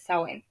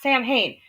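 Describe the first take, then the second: First: It uses a non-American pronunciation. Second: It uses the common American pronunciation. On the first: The speaker calls it right. "It's Samhain" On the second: The speaker calls it wrong. "it's not Samhain, which most people say in America"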